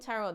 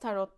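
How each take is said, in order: First: Tarot is said with an English pronunciation. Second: Tarot is said with a Turkish pronunciation. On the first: "İngilizce olduğu için Twin Tarot derim" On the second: "Türkçe söylediğim için"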